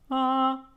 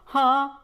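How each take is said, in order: First: It starts with an almost silent H. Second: It starts with a strong, clearly audible H. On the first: "More of a silent H" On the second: "you will decrease that H"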